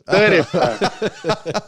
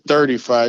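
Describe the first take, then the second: First: It is said in a Mississippi accent. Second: It is said in a Northern accent.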